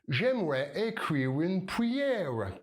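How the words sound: It is said with a thick English-like R. "Si t'es anglophone, Comme si tu avais une patate chaude dans la bouche"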